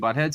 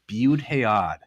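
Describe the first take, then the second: First: It sounds like the ordinary English word butthead. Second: It is reshaped into three syllables, Bud Hayad. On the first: It sounds like making fun of the person. The speaker calls it wrong. "it's not saying Butthead" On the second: It avoids making fun of the person. The speaker calls it right. "Say like Bud Hayad"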